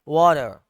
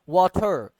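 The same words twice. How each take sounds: First: It is said in an American accent, flapped t. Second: It is said in a British accent, clear t.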